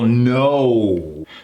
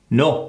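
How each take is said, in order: First: The vowel is fully formed and gliding. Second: The vowel is cut short, only half formed. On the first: The speaker calls it right. "versus the full no" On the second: The speaker calls it wrong. "We tend to do half of it"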